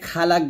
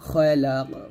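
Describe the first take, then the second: First: The final q ends without an echoing bounce. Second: The final q ends with an echoing bounce. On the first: The speaker calls it wrong. "খালাক বলবেন না" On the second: The speaker calls it right. "কফটা কলকলা করতে হবে"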